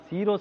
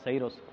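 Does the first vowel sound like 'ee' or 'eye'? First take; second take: ee; eye. First: The first vowel sounds like 'ee'. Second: The first vowel sounds like 'eye'. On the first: The speaker calls it right. "ಅದನ್ನು ಸೀರೋಸ್ ಅಂತ pronounce ಮಾಡಬೇಕು" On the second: The speaker calls it wrong. "ತಪ್ಪಾಗಿ pronounce ಮಾಡಿದ್ದಕ್ಕೆ"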